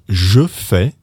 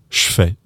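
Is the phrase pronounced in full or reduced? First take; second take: full; reduced. First: Both words are pronounced fully and separately. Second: The first word is squeezed into the second. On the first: "instead of je fais" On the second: "say je fais"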